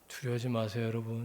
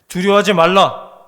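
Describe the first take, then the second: First: It is said softly, in a coaxing tone. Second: It is said loudly, in a forceful tone.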